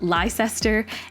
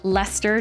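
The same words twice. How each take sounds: First: The name is said in a long, spelled-out form. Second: The name is said in a short, clipped form. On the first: The speaker calls it wrong. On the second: The speaker calls it right. "It's almost always something shorter"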